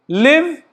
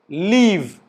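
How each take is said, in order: First: The word has the short vowel of 'live'. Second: The word has the long vowel of 'leave'. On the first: The speaker calls it right. "this is a word L I V E" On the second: The speaker calls it wrong. "pronounce it as leave, like this"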